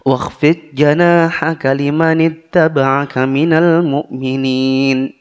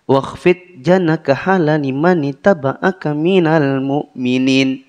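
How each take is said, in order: First: Long and short vowels are kept clearly distinct. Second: Long and short vowels are blurred and unclear. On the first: The speaker calls it right. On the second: The speaker calls it wrong.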